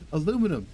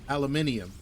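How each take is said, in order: First: The word is said the usual, non-Canadian way. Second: The word is said the Canadian way.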